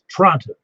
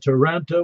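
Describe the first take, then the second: First: The middle sound is dropped. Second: Every syllable is fully pronounced. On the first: The speaker calls it right. "You just you leave out that middle O" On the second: The speaker calls it wrong. "even though it's spelled Toronto, says Toronto"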